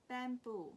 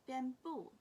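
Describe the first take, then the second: The two takes are said the same way.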